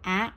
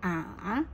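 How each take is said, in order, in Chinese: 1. 音高一直保持高而平。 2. 音高先降到低，再升起来。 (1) "一声" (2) "三声"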